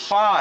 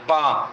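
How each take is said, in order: First: It begins with an f sound from teeth and lip. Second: It begins with a p sound from both lips. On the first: The speaker calls it right. "ये पा नहीं है, फ़ा है" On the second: The speaker calls it wrong. "इसको फ़ा की जगह पा बोलते हैं"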